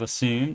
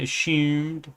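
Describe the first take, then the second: First: The middle consonant is a plain s sound. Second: The middle consonant is an sh sound. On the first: "instead of assume" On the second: "they throw a, a H in there along with the S"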